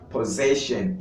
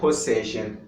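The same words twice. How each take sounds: First: The first double s sounds like a z. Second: The first double s sounds like an s. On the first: The speaker calls it right. "Assim como você deve dizer possession" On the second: The speaker calls it wrong. "e não possession"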